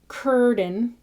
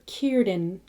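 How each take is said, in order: First: The first vowel sounds like the vowel in fur. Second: The first vowel sounds like the vowel in ear. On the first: The speaker calls it wrong. "It's not curden" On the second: The speaker calls it right. "It's Kier, Kierden"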